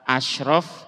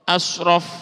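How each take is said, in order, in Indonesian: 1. Konsonan sebelum 'raf' adalah sh yang tebal. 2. Konsonan sebelum 'raf' adalah s berat. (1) "Kalau pakai shin, shin ya, tebel" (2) "pakai sod"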